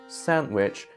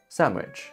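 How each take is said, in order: First: The middle is said with a clear n sound. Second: The middle is said with an m sound.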